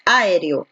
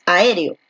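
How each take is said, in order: First: "aéreo" wrongly stressed on the opening A; counterexample, Áereo; misplaced stress. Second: "aéreo" correctly stressed on the É after A. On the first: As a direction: punch the first A of "aéreo". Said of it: "tú no dices aéreo". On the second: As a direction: lean on the É in "aéreo". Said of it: "la fuerza de voz está aquí en la E". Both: Shown as a demonstration.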